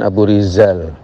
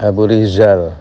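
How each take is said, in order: The two takes are said the same way.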